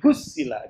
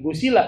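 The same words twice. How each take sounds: First: The s sound is doubled and held longer. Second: The s sound is short and single. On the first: It means being washed thoroughly clean. The speaker calls it right. "Kalau gue pakai ham pakai tasdid tuh mandi ini bukan mandi biasa" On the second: It would mean an ordinary bath. The speaker calls it wrong. "Ini bukan gusila"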